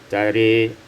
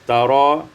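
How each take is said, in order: First: The final vowel leans toward an 'e' sound. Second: The final vowel is an open 'a'.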